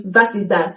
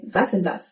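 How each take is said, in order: First: Was ist das with a clear ist; careful Was ist das; textbook form. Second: Ist slurred into das in Was ist das; quiet casual Was ist das; spoken form. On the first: Teacher gives the textbook question. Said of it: "Textbook German tells you". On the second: Teacher shows the spoken question. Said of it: "expect to hear". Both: Shown as a demonstration.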